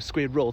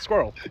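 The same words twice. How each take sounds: First: The word is carefully over-articulated, syllable by syllable. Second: The word is said quickly and casually. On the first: "I have to go squirrel to proper pronounce it" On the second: "but otherwise it's just squirrel"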